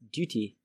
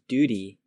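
First: The middle consonant is a clear T. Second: The middle consonant sounds like a D. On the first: The speaker calls it right. "Pronounce that T in duty" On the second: The speaker calls it wrong. "not as D"

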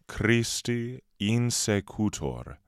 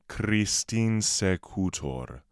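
First: The two words are kept separate, both vowels said. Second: The vowels merge, running the two words together. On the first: "Christi insecutor becomes" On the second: "becomes Christin secutor"

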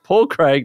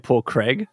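First: The name is said with an Australian pronunciation. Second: The name is said with an American pronunciation. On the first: "that's how we say it in Australia" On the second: "Americans, you say Paul Craig"

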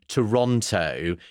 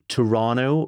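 First: It is said the British way. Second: It is said the local Canadian way. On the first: "as Brits would say" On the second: "I believe, Duane, it's Toronto"

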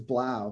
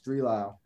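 First: The name begins with a 'b' sound. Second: The name begins with the word 'three'. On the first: The speaker calls it right. "Had no idea it was Blau for so long" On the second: The speaker calls it wrong. "I always thought his name was Three Lau"

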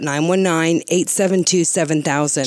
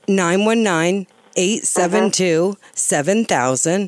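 First: The number is said at normal speed. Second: The number is said more slowly.

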